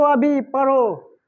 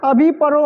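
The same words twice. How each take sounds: First: Slower, spelled-out order; deliberate teacher's instruction; slow command. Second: Loud, higher order to read now; commanding teacher call; firm command. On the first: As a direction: drag the command out slowly. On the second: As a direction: bark the order to read at once. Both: Shown as a demonstration. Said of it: "या पढ़ो बोल रहा".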